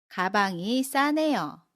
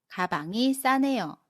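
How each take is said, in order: No difference in how they are said.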